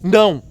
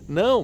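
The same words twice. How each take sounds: First: It is shouted sharply, like a command. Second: It is said softly, in a pleading tone. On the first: It is an order. "O não, quando você grita, é uma ordem" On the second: Please spare me, don't do this to me. "quando você faz um não numa outra entonação, esse não quer dizer não faça isso comigo"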